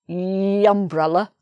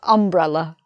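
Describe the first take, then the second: First: The word begins with a Y sound. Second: The word begins with a plain vowel sound. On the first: The speaker calls it wrong. "just like university, but it's not pronounced umbrella" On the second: The speaker calls it right. "it's pronounced umbrella"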